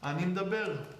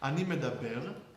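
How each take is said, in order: First: The m runs straight into d without vowel. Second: A vowel is sounded between the m and d.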